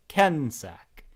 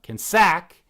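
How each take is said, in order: First: Kensack as KEN-sack, first syllable drawn out; stress on first syllable. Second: Kensack with SACK punched loud and high; wrongly stressed Kensack, loud second syllable. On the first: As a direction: lean slowly on the KEN of Kensack. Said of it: "the first syllable has the stress". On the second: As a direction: put the weight on the end of Kensack, ken-SACK. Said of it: "It's not Kensack". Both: Shown as a demonstration.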